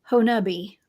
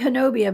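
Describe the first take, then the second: First: The name is said the way locals say it. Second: The name is said the way the speaker habitually does. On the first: This is how the name is actually pronounced. The speaker calls it right. "but it's Honubi" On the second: This is how the speaker tends to say the name. The speaker calls it wrong. "I like to say Honobia"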